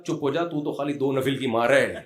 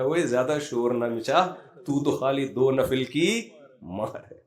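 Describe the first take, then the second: First: Laughing quote. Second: Drawn-out telling-off to the calf; mock rebuke of a crying calf, slow and deliberate; slow mock scolding. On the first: Retold or imitated. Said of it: "اسے کہا". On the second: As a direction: scold it slowly, half teasing. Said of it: "کہہ رہا".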